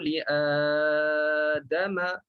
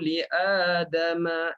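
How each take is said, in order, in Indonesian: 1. Vokal panjang dibaca empat harakat. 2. Vokal panjang dibaca dua harakat. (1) "Itu empat" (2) "Itu dua harakat"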